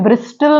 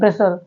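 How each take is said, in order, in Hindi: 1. l से पहले t की आवाज़ बोली जाती है। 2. l से पहले t की आवाज़ साइलेंट है। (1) "इसे ब्रिस्टल नहीं पढ़ा जाता" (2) "क्या पढ़ा जाता है?"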